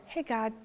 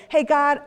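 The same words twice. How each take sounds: First: Soft, easy hello to God; quiet, unhurried check-in; intimate, casual prayer. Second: Loud, higher call to God; busy, routine prayer. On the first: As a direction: greet God gently, like a close friend. Contrasts an intimate chat with God. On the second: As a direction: call on God briskly and loudly. Acts out her usual busy prayers. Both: Retold or imitated.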